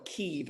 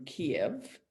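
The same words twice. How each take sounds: First: "Kyiv" as one syllable, keev; one long ee in "Kyiv"; newer pronunciation. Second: "Kiev" in two syllables, key-EV; two-syllable "Kiev", ending in -ev; older pronunciation. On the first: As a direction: say "Kyiv" like keev, rhyming with sleeve. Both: Shown as a demonstration. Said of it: "a different pronunciation of that city".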